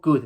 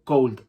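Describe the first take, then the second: First: Could said kud, short u, no L. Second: Cold with a long O and clear L; cold as wrong model. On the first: Teacher contrasting could with cold. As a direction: give could with no L at all. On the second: Teacher showing the wrong way, cold. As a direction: say cold with the L sounded. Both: Shown as a demonstration. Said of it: "no digo cold".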